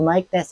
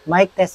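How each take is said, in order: First: Background noise is reduced strongly. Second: Background noise is reduced only lightly. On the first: "level three na noise reduction" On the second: "level one na noise reduction"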